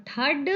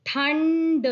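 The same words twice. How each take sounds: First: Said in the usual way. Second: ठंड with a long n before ड; nasal anusvara. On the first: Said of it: "जिन पर नहीं लगा है". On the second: Shown as a demonstration. Teacher adds the anusvara to the word, ठंड with held nasal. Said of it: "ठ पर अनुस्वार लगाया".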